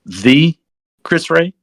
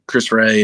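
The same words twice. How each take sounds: First: THE set apart, then Chris Ray rising; double-check "The Chris Ray" in disbelief, pausing after The; retold amazement. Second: Said in the usual way. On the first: Team guy hearing a famous navigator's name, incredulous.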